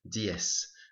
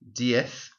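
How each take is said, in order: First: The final consonant is an 's' sound. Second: The final consonant is a 'th' sound. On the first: This is the pronunciation in southern Spain and Latin America. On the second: This is the usual pronunciation in most of Spain.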